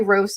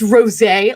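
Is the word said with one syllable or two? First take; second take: one; two. First: The word is said with one syllable. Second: The word is said with two syllables. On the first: The speaker calls it wrong. "I said dry rose cider on accident" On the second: The speaker calls it right. "my husband was like, it's rosé"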